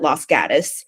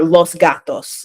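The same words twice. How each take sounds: First: It is said with an American English pronunciation. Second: It is said with a Spanish pronunciation.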